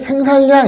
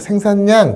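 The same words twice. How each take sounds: First: The middle consonant is pronounced as an l. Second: The middle consonant is pronounced as an n. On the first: The speaker calls it wrong. "생산량 이러지 않죠" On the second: The speaker calls it right. "생산량 그지? 유음화의 예외인 비음화가 된 거야"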